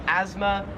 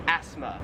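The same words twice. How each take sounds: First: "asthma" with a buzzing z, AZ-ma; American pronunciation. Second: "asthma" with a hissed s, ASS-ma; Australian pronunciation. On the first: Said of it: "more like a Z sound". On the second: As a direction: keep the s in "asthma" unvoiced, no z. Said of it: "like an S sound". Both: Shown as a demonstration.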